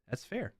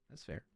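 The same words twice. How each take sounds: First: Said in the usual way. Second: "That's fair." again, much softer; near-silent repeat. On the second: Shown as a demonstration. Streamer conceding a commenter's point, much softer. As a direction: murmur it under your breath.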